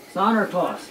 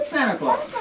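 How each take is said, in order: First: Said in the usual way. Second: "Santa Claus" tossed up much higher with a laugh; a chuckling, lifted "Santa Claus"; playful high Santa Claus. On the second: Acted. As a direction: sing out "Santa Claus" high and amused, rising at the end. Punchline name for English speakers.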